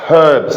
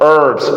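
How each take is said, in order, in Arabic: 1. لكنة بريطانية، الـ h بتتنطق، والـ r مش بتتنطق. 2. لكنة أمريكية، الـ h مش بتتنطق. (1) "البريش بيقولها" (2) "يبقى انا عندي في الامريكان ما بننطقش الاتش"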